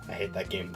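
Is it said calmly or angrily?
calmly. It is said calmly, without much anger.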